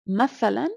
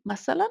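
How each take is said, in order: First: "مثلًا" with th as in "think"; th sound. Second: "مثلًا" with s in place of th; "مثلًا" with a hissed s in the middle; s sound. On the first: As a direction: say "مثلًا" as mathalan, tongue between teeth. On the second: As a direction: say "مثلًا" as masalan. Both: Shown as a demonstration. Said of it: "or like a s".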